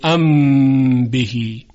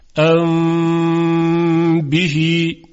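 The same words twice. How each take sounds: First: The m is said with full lip closure. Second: The m is hidden, nasal, lips slightly apart. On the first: The speaker calls it wrong. "یعنی نمیگوییم ام بهی" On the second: The speaker calls it right. "اخفا میکنیم"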